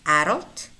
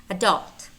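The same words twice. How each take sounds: First: Adult as "AD-ult", ending on a rise; stress on first syllable. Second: Adult as "a-DULT", falling at the end; weak start, stressed DULT in adult; stress on second syllable. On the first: Teacher contrasts two choices, first-syllable stress in Adult. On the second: Teacher contrasts two choices, second-syllable stress in adult. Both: Shown as a demonstration. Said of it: "You can pick one".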